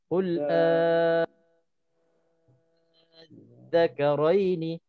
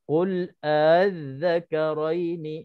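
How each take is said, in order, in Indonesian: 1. Vokal itu dibaca panjang, enam harakat. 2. Vokal itu dibaca pendek, dengan hamzah yang dilembutkan. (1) "enam harakat" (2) "dua harakat dengan tashil hamzah tsaniyah"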